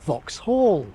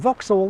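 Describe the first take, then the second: First: The stress is on the second syllable. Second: The stress is on the first syllable. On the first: "The space before the L there tells you where the main stress is" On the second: "the shifted form"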